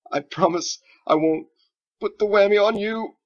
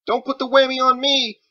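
First: High, loud words squeezed out between laughs; struggling through laughter. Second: High, loud frightened cry; panicked plea. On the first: Wizard reassuring the frightened boy, laughing helplessly. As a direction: barely get it out for laughing. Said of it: "he struggled to say". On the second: Boy afraid of the wizard's spell, high panicked shout. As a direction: shout it, terrified of a curse. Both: Acted.

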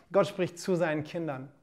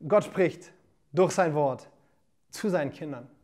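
First: Said in the usual way. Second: Each phrase set apart by a pause, dropping lower. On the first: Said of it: "preacher repeats key sentence". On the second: Shown as a demonstration. Preacher to livestream viewers, phrase by phrase with pauses. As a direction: preach it word by word with weight. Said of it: "preacher spells out key sentence".

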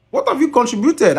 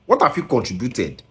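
First: The same question again, much higher and pushed; high exasperated repeat. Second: Said in the usual way. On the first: Real, not acted. Scolding the singer, high exasperated demand. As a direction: demand it in a sharp high cry.

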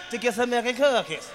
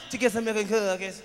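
First: Imitating the kid. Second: Lightly voiced little kid; imitating the kid. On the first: Comedian mimicking the boy repeating his answer, lightly voiced. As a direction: mimic the boy's reply a second time. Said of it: "I wanted to hear him say it again". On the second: Comedian mimicking the six-year-old's answer, lightly voiced. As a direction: mimic the boy's small reply. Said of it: "That's how he said it".

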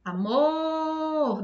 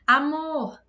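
First: AMOR called out with a long held MOR; higher, sustained a-MOOOR; calling the word. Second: Said in the usual way. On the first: Shown as a demonstration. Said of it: "Demorei mais no mor". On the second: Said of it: "você chama essa palavra".

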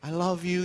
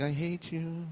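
First: Insincere, pleasant I love you; outward affection. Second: Softer, under-the-voice grudge; secret inner thought. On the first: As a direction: say it aloud as a polite front. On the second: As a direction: quietly let the hidden thought out. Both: Acted. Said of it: "In your head, you're like".

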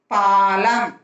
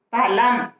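First: பாலம் with the "aa" held long; long vowel. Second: பழம் with a short first "a"; short vowel. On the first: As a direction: stretch the first vowel of பாலம். (பாலம் நெடிலாக, நீட்டி) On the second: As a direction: keep the opening of பழம் brief. (பழம் குறிலாக, குறுக்கி) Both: Shown as a demonstration. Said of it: "துணைக்கால் போட்டு".

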